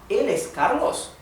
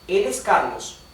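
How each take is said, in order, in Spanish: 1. Se dice con entonación de pregunta. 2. Se dice con entonación de afirmación. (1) "O puede ser una pregunta. Decimos" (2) "Esto puede ser una oración aseverativa y decimos"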